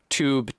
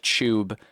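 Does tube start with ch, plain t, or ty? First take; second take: t; ch. First: It begins with a plain t sound. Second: It begins with a ch sound. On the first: "the y has just been removed" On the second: "the T gets turned into a C H"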